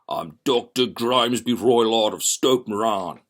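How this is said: The voice is rough and guttural.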